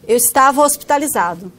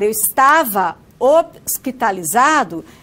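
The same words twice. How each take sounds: First: The final vowel of 'estava' is dropped and linked. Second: The final vowel of 'estava' is fully pronounced. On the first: "é comum nós falarmos como" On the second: "em vez de falar"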